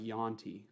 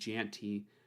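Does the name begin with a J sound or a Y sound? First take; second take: Y sound; J sound. First: The name begins with a Y sound. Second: The name begins with a J sound. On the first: The speaker calls it right. "more like Yanti" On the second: The speaker calls it wrong. "You guys keep saying Janty"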